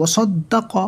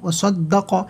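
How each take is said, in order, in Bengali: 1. স্বরধ্বনিগুলো ছোট রেখে পড়তে হবে। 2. স্বরধ্বনিগুলো ছোট রেখে পড়তে হবে।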